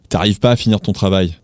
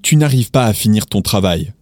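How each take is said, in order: First: The opening is shortened to t'arrives. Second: The opening is said in full as tu n'arrives. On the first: "if you want to be a little bit more casual" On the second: "instead of saying"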